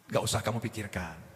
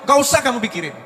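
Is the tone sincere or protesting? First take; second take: sincere; protesting. First: It sounds calm, sincere and accepting. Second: It sounds resentful and protesting.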